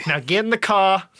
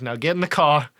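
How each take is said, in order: First: Put-on Brooklyn accent. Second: Put-on gruff Brooklyn accent order. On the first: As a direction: bark it like a Brooklyn mobster. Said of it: "real thick Brooklyn accent". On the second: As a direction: tough Brooklyn guy voice. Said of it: "got a real thick Brooklyn accent".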